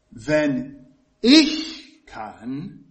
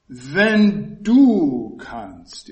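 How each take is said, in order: First: "wenn ich kann" drawn out very slowly, "ich" stressed and rising. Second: "Wenn du kannst" very slow and louder, "du" punched then falling; stress on du. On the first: Preacher showing the congregation a stress on "ich", slow and drawn out. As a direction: lean hard on "ich", stretch every word. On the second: Preacher showing the congregation the stress moving to "du", loud and slow. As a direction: hit "du" hard and slow. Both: Shown as a demonstration. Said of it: "Er verlegt die Betonung auf".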